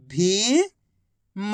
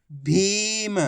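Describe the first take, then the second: First: भीम split as भी, long pause, म; syllable by syllable. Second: भीम joined as one word with long ee; blended word. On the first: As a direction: sound out भीम slowly, भी rising, then म alone. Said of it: "एक अक्षर की पहचान करो, उनका उच्चारण करो". (भीम को अक्षर-अक्षर अलग बोलें) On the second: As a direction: blend भी and म into भीम without a gap. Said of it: "आपस में मिला के पढ़ दो". (भीम को मिलाकर बोलें) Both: Shown as a demonstration.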